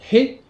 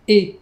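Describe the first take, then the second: First: It begins with an h sound. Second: It begins directly with the vowel. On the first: This is how the written character is normally read. "ici le kana c'est bien He" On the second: This is how the character is read as the direction particle. "mais la particule on va la prononcer E"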